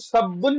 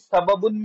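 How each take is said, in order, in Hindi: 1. दोनों b ध्वनियाँ मिलकर एक दोहरा b बन जाती हैं। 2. दोनों b ध्वनियाँ एक स्वर से अलग हैं।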